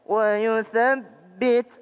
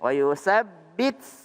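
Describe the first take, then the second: First: The th sound is kept brief and light. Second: The th sound is drawn out with a hiss. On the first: The speaker calls it right. "Tapi sedikit saja" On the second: The speaker calls it wrong. "Jangan ... wa yusabbit kebanyakan"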